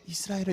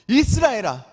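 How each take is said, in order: First: The name is called quietly and low. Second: The name is called out in a loud voice.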